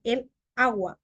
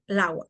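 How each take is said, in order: First: Said in the usual way. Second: "el agua" said as lagua; article fused. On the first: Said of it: "Debería ser". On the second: Shown as a demonstration. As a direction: drop the opening e in "el agua". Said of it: "hay gente que dice".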